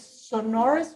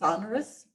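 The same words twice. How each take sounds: First: The stress is on the second syllable. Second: The stress is on the first syllable. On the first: This is the British way of saying it. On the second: This is the American way of saying it.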